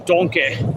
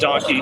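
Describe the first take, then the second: First: It is said in a put-on character voice. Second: It is said in the speaker's normal voice. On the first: A movie character says it this way. "As Shrek would say" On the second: This is how it is normally said. "instead of"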